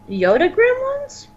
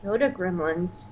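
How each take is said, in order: First: GREMLINS swooping high into a question; puzzled question. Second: Very soft, low murmur; quiet echo. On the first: Co-host querying the name, GREMLINS rising in puzzled question. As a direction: slowly lift "gremlins" sharply upward, querying it. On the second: Co-host puzzling over the name, quiet echo. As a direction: repeat it under your breath, pondering. Puzzled repeat of co-host's phrase. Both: Real, not acted.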